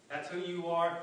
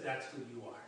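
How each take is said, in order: First: Louder, pressing the accusation home; insistent repeat. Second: Softer, lower, a quiet accusing voice; hushed inner voice. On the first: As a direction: say it again like a voice that won't let go. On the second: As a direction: murmur it like a voice in your head. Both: Retold or imitated. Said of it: "there's that voice that says".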